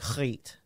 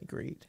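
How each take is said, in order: First: The name starts with a harsh throaty G. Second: The name starts with a plain English G. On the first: "You have to put the H, the hard G on there" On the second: "You can just call me Griet"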